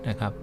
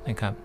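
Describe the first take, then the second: Both takes have the same delivery.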